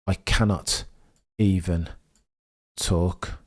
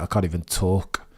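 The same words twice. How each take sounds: First: "I cannot even talk" said slowly, word by word, with long pauses; broken up by nerves. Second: Said in the usual way. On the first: Real, not acted. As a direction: let every word hang in the air.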